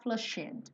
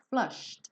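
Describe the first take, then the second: First: The ending is said with an extra vowel. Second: The ending is a bare d without vowel. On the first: The speaker calls it wrong. "não vai falar flushed" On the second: The speaker calls it right. "e põe o D no final. Só a percussão"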